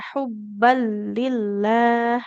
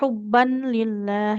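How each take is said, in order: First: The n sound merges into the following l. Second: The final n sound is pronounced clearly. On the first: The speaker calls it right. "ya hubban lillah" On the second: The speaker calls it wrong. "Tidak ... jangan dibaca jelas tanwinnya"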